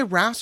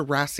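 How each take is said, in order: First: Said in the usual way. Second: Wrasse said as two syllables, "rass-ee"; alternative pronunciation. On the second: Shown as a demonstration. Host unsure of a fish name, wrasse said "rass-ee". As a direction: add an ee sound to the end of wrasse. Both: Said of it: "Or do you say wrasse or wrasse?".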